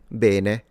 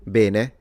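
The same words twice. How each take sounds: First: It has a northern Italian regional pronunciation. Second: It has a northern Italian regional pronunciation.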